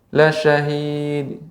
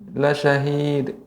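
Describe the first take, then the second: Both takes have the same delivery.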